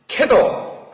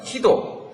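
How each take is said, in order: First: The first vowel sounds like 'eh'. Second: The first vowel sounds like 'ee'.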